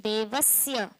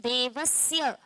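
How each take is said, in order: No difference in how they are said.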